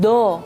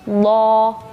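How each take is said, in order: First: The consonant is a light plain d, tongue tip. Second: The consonant is heavy and emphatic, tongue side. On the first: The speaker calls it wrong. "yang bagian ke depan ini yang kepake" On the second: The speaker calls it right. "harusnya bukan do, tapi lo"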